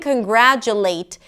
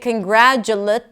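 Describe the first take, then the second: First: The last syllable has a full long vowel. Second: The last syllable has a reduced schwa vowel. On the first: The speaker calls it right. "the late at the end is a pure vowel" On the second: The speaker calls it wrong. "actually changes the word. It doesn't seem right"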